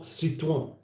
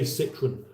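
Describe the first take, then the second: First: Citroen with a French ending, "seet-wan"; French accent. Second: Citroen anglicised as "SIT-run"; British pronunciation. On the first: Host shows how not to say it, French accent. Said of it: "Unless you're doing a French accent". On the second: Host shows how we say it here, British pronunciation. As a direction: say Citroen with plain English sounds. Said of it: "that's how we say". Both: Shown as a demonstration.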